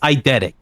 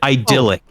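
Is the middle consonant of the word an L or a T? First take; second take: T; L. First: The middle consonant is a T sound. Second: The middle consonant is an L sound. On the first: The speaker calls it right. "It's a T" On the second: The speaker calls it wrong. "you said an L"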